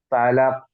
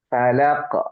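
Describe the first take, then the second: First: The final q stops flat without a bounce. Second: The final q is released with a bounce. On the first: "Kalau nggak mantul tuh gini" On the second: "karena ini mantul jadi falaq"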